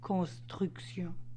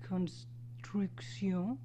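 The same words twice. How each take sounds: First: The R is made in the throat. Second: The R is soft, like English R.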